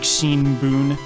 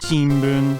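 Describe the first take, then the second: First: A clear n sound comes before the b. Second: An m sound comes before the b. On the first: The speaker calls it wrong. "That can't sound like N, like Shinbun" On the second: The speaker calls it right. "So it's like Shimbun, because you're going mm, and then b"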